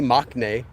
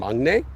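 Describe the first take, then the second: First: The middle consonant stays a plain k sound. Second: The middle consonant changes to an ng sound. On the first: The speaker calls it wrong. "that would be wrong" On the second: The speaker calls it right. "the sound change in Mangne"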